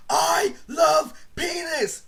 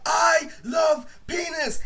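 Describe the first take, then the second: First: Slow, high mock shout of the dare; drawn-out shouted taunt; retold yell. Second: High, slow shouted line to the street; retold yell. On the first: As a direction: belt it out like the dare demands. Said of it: "go outside and yell". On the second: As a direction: bellow it out for everyone to hear. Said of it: "I actually went outside and yelled".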